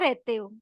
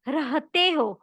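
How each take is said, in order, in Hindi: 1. बीच की h आवाज़ छोड़ दी जाती है। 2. बीच की h आवाज़ साफ़ बोली जाती है। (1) "ये नहीं बोलना है" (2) "नहीं, रहते हो"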